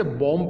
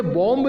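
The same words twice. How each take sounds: First: "बॉम्ब" said as bom, B silent; correct reading. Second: "बॉम्ब" with the final b sounded; wrong reading. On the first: Teacher correcting students, "बॉम्ब" with silent B. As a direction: end "बॉम्ब" on the m, dropping the b. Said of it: "बी silent है". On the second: Teacher warning students off "बॉम्ब", wrongly sounding the B. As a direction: say "बॉम्ब" ending in a released b. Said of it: "इसे बॉम्ब नहीं पढ़ेंगे". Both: Shown as a demonstration.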